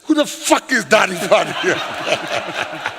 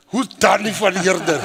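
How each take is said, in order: First: Slow, exasperated retold question, laugh behind it; frustrated. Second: Mildly baffled retold question; toned-down puzzled question. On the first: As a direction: demand it in comic exasperation. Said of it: "so I was frustrated with them". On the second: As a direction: ask it politely, a touch puzzled. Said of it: "Now, let me be honest".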